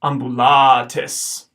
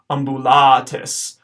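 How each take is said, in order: First: "ambulatis" very slow and louder, late a held long; slow long vowel. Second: "ambulatis" with the late a held; careful pronunciation. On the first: Teacher repeating "ambulatis" slowly for the class. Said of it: "the first A is short". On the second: Teacher giving the answer "ambulatis" to students. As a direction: model "ambulatis" clearly. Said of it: "towards the end of the word we get a long A". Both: Shown as a demonstration.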